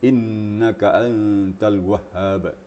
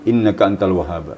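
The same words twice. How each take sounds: First: The long vowels are stretched and stressed. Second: The long vowels are clipped without stress. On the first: The speaker calls it right. "setiap tanda panjang itu ada penekanan suara" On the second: The speaker calls it wrong. "Jangan ... bagaikan sayur tanpa garam"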